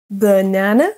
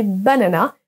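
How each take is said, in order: First: "banana" as buh-NA-na, weak first vowel; English pronunciation. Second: "banana" as ba-na-NA, all full French A's; wrong French pronunciation. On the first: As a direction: stress the middle of "banana" in English. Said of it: "s'accentue sur la deuxième syllabe". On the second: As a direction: say "banana" French-style, evenly to the end. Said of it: "pour ne plus prononcer". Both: Shown as a demonstration.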